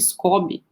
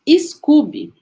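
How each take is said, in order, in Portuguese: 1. A primeira vogal soa como 'oh'. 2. A primeira vogal soa como 'oo'. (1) "se a gente for pronunciar, talvez fosse Scooby" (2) "eu devo estar falando errado"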